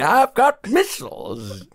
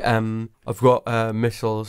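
First: It is said in a put-on character voice. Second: It is said in a natural speaking voice.

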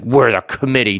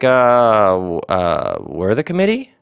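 First: It is said in a heavy, overbearing way. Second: It is said like an uncertain question. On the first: The speaker is bullying the listener. "it's not this like heavy-handed, over-the-top judgment" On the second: The speaker is unsure of their authority. "you don't say it like it's a question"

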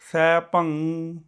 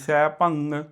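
First: The word stops on the nasal with no g. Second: A g or ng sound follows the final nasal. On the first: The speaker calls it right. "ਅੱਗੇ ਆਵਾਜ਼ ਥੱਲੇ ਗ ਨ, ਉਹ ਆਵਾਜ਼ਾਂ ਨਹੀਂ ਆਉਣੀਆਂ" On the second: The speaker calls it wrong. "ਕਈਆਂ ਦੀ ਮਗਰੋਂ ਗੰਗੇ ਦੀ ਆਵਾਜ਼ ਆਉਂਦੀ"

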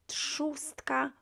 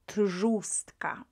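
First: The sound after t is voiceless, like tsz. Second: The sound after t is voiced, like tzh. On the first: The speaker calls it right. "R that appears after T will be pronounced as S" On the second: The speaker calls it wrong. "rather than"

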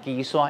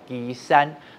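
First: 山 takes the colloquial Hokkien reading. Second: 山 takes the literary Hokkien reading. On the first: The speaker calls it wrong. "旗山不能讲旗山" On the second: The speaker calls it right. "要讲旗山"

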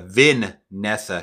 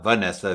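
First: The first syllable sounds like 'vin'. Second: The first syllable does not sound like 'vin'. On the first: The speaker calls it right. "Vin-nessa Shaw" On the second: The speaker calls it wrong. "not Vanessa"

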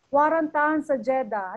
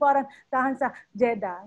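First: The phrase flows without breaths inside it. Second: The phrase is broken up by breaths between parts. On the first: The speaker calls it right. "sasabihin ko" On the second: The speaker calls it wrong. "Hindi ko sasabihin... Hindi ako hinga ng hinga. Hindi pwede yun"

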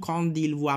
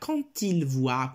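First: Quand and il are said without a linking t. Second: Quand links into il with a t sound. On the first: The speaker calls it wrong. "non quand il voit" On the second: The speaker calls it right. "ma quand il voit"

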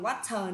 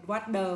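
First: The middle consonant sounds like a clear t. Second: The middle consonant sounds like a soft d. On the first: The speaker calls it wrong. "không đọc water nữa" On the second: The speaker calls it right. "Cô đọc là water"

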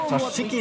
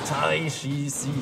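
First: The name is said as 'Tashiki'. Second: The name is said as 'Taishi-si'.

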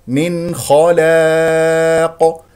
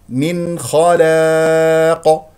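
No difference in how they are said.

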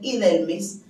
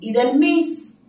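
First: The stress is on the middle syllable. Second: The stress is on the final syllable. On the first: This is the usual Spanish pronunciation. "en lugar de ser Idelmis" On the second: This is how French speakers say it. "dicen Idelmis"

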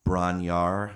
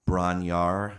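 First: The name is said as two quick syllables. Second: The same.

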